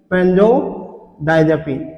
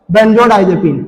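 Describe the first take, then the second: First: "benzodiazepine" very slow and softer, split by a pause; dictation pace. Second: Said in the usual way. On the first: Real, not acted. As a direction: break "benzodiazepine" into two slow, low parts for note-takers. Teacher repeats term for dictation. ("benzodiazepine" धीरे-धीरे, तोड़कर लिखवाते हुए)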